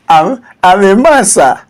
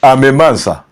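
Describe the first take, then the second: First: It is said in a feminine voice. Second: It is said in a masculine voice.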